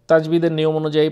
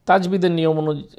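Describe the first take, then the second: No difference in how they are said.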